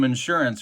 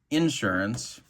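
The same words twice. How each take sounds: First: It is said in a standard way. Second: It is said the Central Illinois way.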